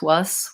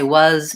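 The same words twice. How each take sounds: First: The word ends with a voiceless s sound. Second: The word ends with a voiced z sound.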